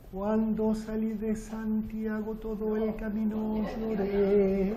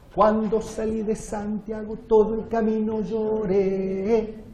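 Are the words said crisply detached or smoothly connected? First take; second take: smooth; detached. First: Syllables are soft and smoothly joined together. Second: Syllables are short, hard and crisply detached. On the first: The speaker calls it wrong. "No sería mucha chacarera" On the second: The speaker calls it right. "el ejemplo del extremo staccato"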